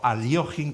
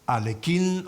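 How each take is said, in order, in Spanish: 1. El nombre se dice más cerca del ruso. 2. El nombre se dice a la manera habitual en español.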